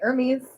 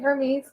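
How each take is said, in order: First: It begins with no h sound. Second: It begins with an h sound. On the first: This is the way it is said in Greece. "we'd say Hermes" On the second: This is the usual American way. "we wouldn't say Hermes"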